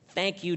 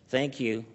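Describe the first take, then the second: First: It is said in a joyful, smiling way. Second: It is said in a sad, grumpy way.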